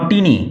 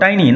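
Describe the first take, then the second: First: The first vowel sounds like 'ee'. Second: The first vowel sounds like 'eye'. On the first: The speaker calls it wrong. "Not টিনি" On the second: The speaker calls it right. "উচ্চারণ লক্ষ্য করো, টাইনি"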